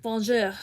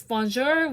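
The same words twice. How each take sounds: First: "bonjour" with a throaty, airy French R; French accent. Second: Said in the usual way. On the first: Shown as a demonstration. Teacher showing the French R for a growl, French accent. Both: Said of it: "but with a French accent".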